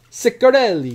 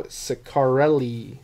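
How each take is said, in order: First: Higher, louder hammed-up Italian accent; mock Italian accent. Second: Said in the usual way. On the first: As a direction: punch the name in a playful Italian accent. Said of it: "I don't know why he's Italian".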